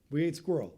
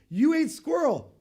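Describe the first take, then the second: First: It sounds like a plain factual statement. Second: It sounds like a disbelieving question.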